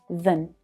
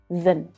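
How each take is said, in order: First: The vowel is reduced to a weak schwa. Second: The vowel is reduced to a weak schwa.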